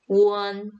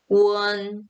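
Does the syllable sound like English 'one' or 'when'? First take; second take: one; one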